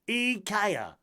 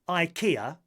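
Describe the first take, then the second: First: It is said the original, native way. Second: It is said the common English way. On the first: The speaker calls it right. "it's actually IKEA" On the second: The speaker calls it wrong. "Rather than um"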